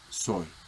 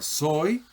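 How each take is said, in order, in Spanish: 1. La palabra se dice sin acento. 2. La palabra se dice con acento. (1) "la forma enclítica soy" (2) "la forma soy acentuada"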